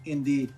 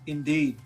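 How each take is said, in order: Both takes have the same delivery.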